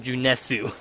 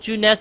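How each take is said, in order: First: The name ends with an added u vowel. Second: The name ends in a plain s sound. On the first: This is the Japanese way to say the name. "do they pronounce it Junesu in the Japanese version?" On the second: This is the English way to say the name. "I'm guessing Junes is like an English word"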